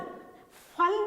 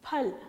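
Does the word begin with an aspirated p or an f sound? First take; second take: f; aspirated p. First: It begins with an f sound. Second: It begins with an aspirated p sound. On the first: The speaker calls it wrong. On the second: The speaker calls it right.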